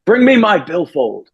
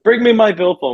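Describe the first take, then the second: First: Lightly voiced, higher, slow call to his wife; a hint of an old man calling from bed; frail old man calling. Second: Higher, more insistent repeat of the call; a light mock of a stubborn call from bed; insistent old man. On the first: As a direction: slowly imitate him calling out for his wallet. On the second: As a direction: replay his call, pitched up and pushier. Repeats the dying man's call.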